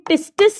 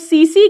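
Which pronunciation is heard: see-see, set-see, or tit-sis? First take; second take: tit-sis; see-see. First: It is said with t sounds, like tit-sis. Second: It is said with s sounds, like see-see. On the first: The speaker calls it wrong. "इसे टिस्टिस नहीं कहते" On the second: The speaker calls it right. "या तो सीसी कहते हैं"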